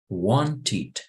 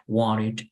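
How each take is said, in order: First: The middle T is a strong, clear T. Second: The middle T is a soft R-like tap. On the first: "en inglés británico la T es fuerte" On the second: "the T and D in the middle, they become a soft R"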